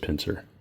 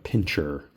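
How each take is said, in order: First: The middle consonant is a soft 's' sound. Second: The middle consonant is a 'ch' sound. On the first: The speaker calls it right. "I'm being very picky about this pincer" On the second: The speaker calls it wrong. "It's actually not pincher"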